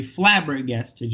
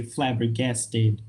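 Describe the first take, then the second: First: Said in the usual way. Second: Flabbergasted stressed wrongly near the end. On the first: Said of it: "the stresses". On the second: Shown as a demonstration. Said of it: "you don't say flabbergasted".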